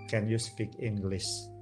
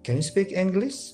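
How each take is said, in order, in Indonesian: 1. Setiap suku kata mendapat bobot dan panjang yang sama. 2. Suku kata bertekanan dan tidak bertekanan bergantian dalam irama. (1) "jadi tidak bisa can you speak English, kan nggak bisa gitu" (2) "Deda deda"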